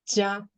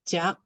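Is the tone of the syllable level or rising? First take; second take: level; rising. First: The syllable is said without a rising tone. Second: The syllable is said with a low rising tone. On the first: "without the letter F, I think it's it, it should be pronounced as 加" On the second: "the letter F is the low rising tone symbol, and the first one is pronounced as 甲"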